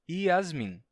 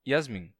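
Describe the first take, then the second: First: The name starts with a vowel sound. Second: The name starts with a consonant sound.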